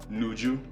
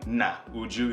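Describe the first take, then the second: First: The a is dropped, merging into one syllable. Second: Both vowels, a and u, are pronounced separately. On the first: "you just say nuju" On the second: "instead of saying na uju"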